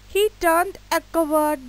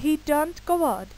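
First: He turned a coward, with the a pushed out louder; louder teacher's wrong example with the a pushed out; wrong version stressed. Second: Said in the usual way. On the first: Shown as a demonstration. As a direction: flag the a in he turned a coward as the mistake. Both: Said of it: "इस तरह का कुछ भी हम लोगों ने use नहीं किया".

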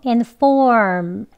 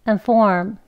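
First: "and form" with full first vowel, long "form"; strong form. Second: "and form" with schwa first syllable; weak form. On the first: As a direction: say "and form" slowly and emphatically. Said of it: "강형". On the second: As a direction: shorten "and" to a weak "un" before "form". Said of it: "약형은". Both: Shown as a demonstration.

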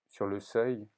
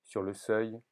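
No difference in how they are said.

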